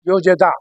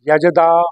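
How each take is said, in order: First: The first syllable has an added o sound. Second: The first syllable has a plain short a. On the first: The speaker calls it wrong. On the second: The speaker calls it right.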